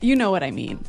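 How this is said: The voice falls at the end, like a statement.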